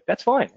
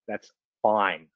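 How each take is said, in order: First: It sounds relaxed and genuinely okay. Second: It sounds annoyed and not really okay.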